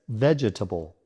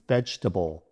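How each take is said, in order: First: The word is said with four syllables. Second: The word is said with three syllables. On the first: The speaker calls it wrong. "Many people mistakenly add an extra syllable" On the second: The speaker calls it right. "the correct pronunciation is vegetable with only three syllables"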